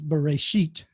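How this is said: The word ends with a t sound.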